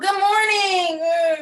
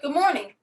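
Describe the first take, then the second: First: It is said in an overly gushing, exaggerated way. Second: It is said clearly and calmly with a smile. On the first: An exaggerated greeting that is not needed. The speaker calls it wrong. "It doesn't have to be some, oh" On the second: A simple, sincere greeting. The speaker calls it right. "just speak clearly. Maybe make eye contact this time. Yep"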